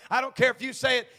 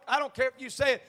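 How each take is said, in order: Both takes have the same delivery.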